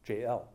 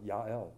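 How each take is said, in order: First: The name begins with a J sound. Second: The name begins with a Y sound. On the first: This is the English form of the name. "Comes in as a J" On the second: This is the Hebrew form of the name. "but in Hebrew, Yael"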